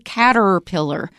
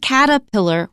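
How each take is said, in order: First: The first R sound is pronounced. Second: The first R sound is dropped. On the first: The speaker calls it wrong. "We don't say caterpillar" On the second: The speaker calls it right. "we usually say caterpillar"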